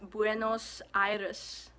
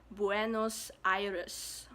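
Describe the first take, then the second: First: It is said with a Spanish pronunciation. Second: It is said with a Spanish pronunciation.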